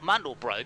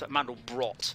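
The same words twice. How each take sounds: First: The final T sound is dropped. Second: The final T sound is said hard. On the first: The speaker calls it wrong. "which is not Mandelbrot" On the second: The speaker calls it right. "It is a hard tea ... I believe that's correct"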